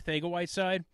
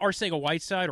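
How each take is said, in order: First: The c is said with a lisp-like th. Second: The c is said as a plain s.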